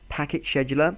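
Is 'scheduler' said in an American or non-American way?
non-American. Scheduler is said in a non-American way.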